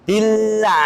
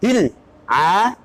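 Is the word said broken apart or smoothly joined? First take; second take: smooth; broken. First: The two parts flow together without a break. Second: There is a break between the two parts. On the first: The speaker calls it right. "masih nyambung" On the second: The speaker calls it wrong. "namanya putus"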